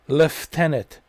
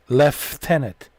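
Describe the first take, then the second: No difference in how they are said.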